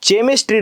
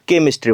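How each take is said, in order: First: The word begins with a ch sound. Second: The word begins with a k sound. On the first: The speaker calls it wrong. "चेमिस्ट्री न होता" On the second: The speaker calls it right. "केमिस्ट्री होतोय"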